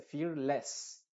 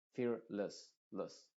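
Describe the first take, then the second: First: "fearless" lento, con "les" de E plena; E muy clara. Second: "Fearless" con "less" reducido a "los" neutro; schwa. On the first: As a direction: di "fearless" marcando la E de "less". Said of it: "con la E muy clara". ("fearless" sin schwa) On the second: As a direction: di "less" suave, sin E clara. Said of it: "sino con una schwa". ("Fearless" con schwa al final) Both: Shown as a demonstration.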